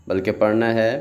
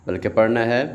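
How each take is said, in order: No difference in how they are said.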